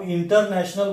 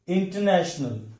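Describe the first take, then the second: First: international with full "ter" and equal weight; wrong even stress. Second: international as "in-tuh-NASH-nul", stress on NASH; correct stress. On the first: Teacher showing the mistake, equal stress on all syllables. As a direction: say IN-TER-NASH-NAL evenly. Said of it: "बोलेंगे तो गलत होगा". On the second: Teacher giving the right form, stress on NASH. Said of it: "correct pronunciation करेंगे". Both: Shown as a demonstration.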